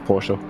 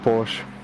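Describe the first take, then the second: First: The final e is pronounced, two syllables. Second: The final e is silent, one syllable. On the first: This is how it is said in Germany. "in Germany you pronounce the E with, and then it's Porsche" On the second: This is how most English speakers say it. "The most of the English-speaking persons call it Porsche"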